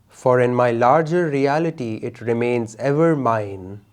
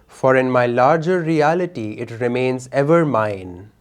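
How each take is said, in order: Both takes have the same delivery.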